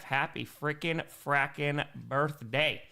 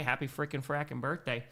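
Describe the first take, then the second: First: Slow, spaced-out "happy frickin' frackin' birthday"; deliberate, drawn-out delivery; slow birthday wish. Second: Said in the usual way. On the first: Real, not acted. Second birthday wish, stretched out.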